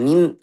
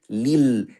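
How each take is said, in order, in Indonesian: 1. Bunyi l-nya sengau dan terdengar seperti n. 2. Bunyi l-nya jelas, tanpa bunyi sengau. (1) "Campur sama hidung" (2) "tapi lil"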